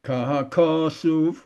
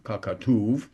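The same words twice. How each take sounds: First: Slow Kahakasuv, stretched KA, weak suv; stress before last syllable. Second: Kakatuv with the weight on TUV; stress on last syllable. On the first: Teacher shows common benching mistake, Kahakasuv stressed on middle KA. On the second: Teacher corrects the benching word, kakatuv stressed on TUV. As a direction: land on the end of kakatuv. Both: Shown as a demonstration.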